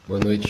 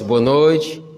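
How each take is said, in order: First: It is said weakly, with little energy. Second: It is said strongly, with more energy.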